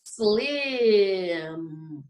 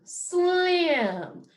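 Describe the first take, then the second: First: Slim drawn long and lower; say it slowly. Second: Slim as one word, higher and shorter; blended back together. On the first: Teacher saying it one more time, slowly stretched. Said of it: "gonna say it one more time". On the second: Teacher putting sounds together for the class, blended. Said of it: "What sounds do you hear?". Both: Shown as a demonstration.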